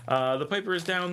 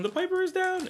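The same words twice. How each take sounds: First: Said in the usual way. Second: High announcer call. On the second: Retold or imitated. Calling out the missing Piper.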